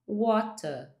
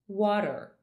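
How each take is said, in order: First: It ends on a vowel with no R. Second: It ends with a curled-back R sound. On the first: "com um sotaque mais britânico, eu falaria" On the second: "Se eu for falar água com o inglês americano, eu falaria"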